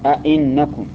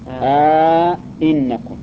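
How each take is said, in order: First: Both glottal stops are fully pronounced, no lengthening. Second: Both glottal stops are full, with a long vowel between. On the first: "تحقيق الهمزتين تقول أئنكم، هذا التحقيق" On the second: "إدخال ألف بينهما ... هذا على التحقيق"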